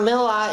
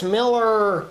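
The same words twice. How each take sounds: First: "Miller" with an open "ah" in place of the R; higher voice, "Miller" ending in "ah"; mimicked R-less Miller. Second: "Miller" drawn out on a hard final R; slow, higher "Miller" with a strong R; corrected Miller. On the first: Friend mocks his Boston pronunciation, higher R-less Miller. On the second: Retold or imitated. Friend from Kansas corrects him, drawn-out R-ful Miller. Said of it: "she was all on my case".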